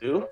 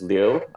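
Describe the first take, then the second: First: The name sounds like the English word 'lieu'. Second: The name is said with a Mandarin diphthong. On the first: "the anglicized way, which is Liu, so it's as though it's in lieu of" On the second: "the Mandarin way, which is Liu, uh, and that's a diphthong"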